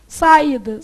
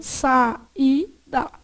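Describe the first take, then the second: First: Said in the usual way. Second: "saída" as sa, í, da with gaps; "saída" slowly broken in three; split into syllables. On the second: Shown as a demonstration. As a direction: separate each syllable of "saída". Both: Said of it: "como é que você separou".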